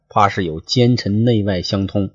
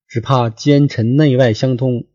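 First: Said in the usual way. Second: 古文朗读腔; classical reading. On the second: Shown as a demonstration. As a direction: recite it like the old text.

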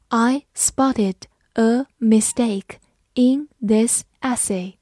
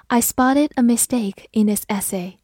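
First: Slow, each word set apart; slow model reading. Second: Said in the usual way. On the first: Shown as a demonstration. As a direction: read slowly word by word for learners to follow. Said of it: "好，慢读一遍". (慢速逐词朗读) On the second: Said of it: "慢读一遍".

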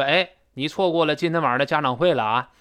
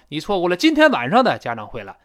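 First: Natural stress on 家长会, 今天晚上 kept light; 今天晚上 passed over without raised pitch; 今天晚上 unstressed. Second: Over-stress 今天晚上 so it sounds odd; heavy, raised emphasis on 今天晚上; odd misplaced stress. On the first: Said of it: "次要信息就不用音调拔得那么高". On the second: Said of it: "这听着怪怪的". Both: Shown as a demonstration.

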